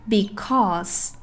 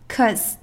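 First: The word is said fully with both syllables. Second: The word is shortened to one syllable. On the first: "标准形式" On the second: "缩读形式"

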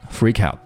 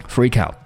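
The two takes are said the same way.

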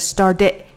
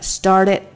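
First: The ending is reduced and nearly disappears. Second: The ending is pronounced fully and clearly. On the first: "变成started，然后就没了" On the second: "本来应该是这样的"

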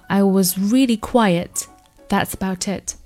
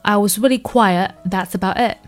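First: The final t sounds are fully released. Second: The final t sounds are caught in the throat.

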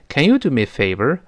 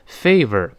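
First: The pitch rises at the end. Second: The pitch falls at the end. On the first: The speaker calls it right. "要往上升。" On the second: The speaker calls it wrong. "就读成favor 不行啊"

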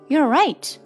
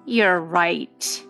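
First: It sounds sincere and agreeing. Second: It sounds scornful and dismissive. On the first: The listener really is correct. "基本上可以判断我这句话是真的在说你是正确的" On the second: The listener is not correct at all. "那么就表示出了我的不屑了"

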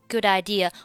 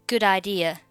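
No difference in how they are said.

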